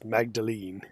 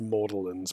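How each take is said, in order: First: The G and D sounds are pronounced. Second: The G and D sounds are silent. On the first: The speaker calls it right. "there's a G and a D next to each other. That's Magdalene" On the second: The speaker calls it wrong. "I don't know who decided it would be pronounced Mordelins"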